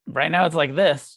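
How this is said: It is said flatly and dismissively, brushing things off. The speaker is brushing the matter aside. The speaker calls it wrong. "just totally dismissive"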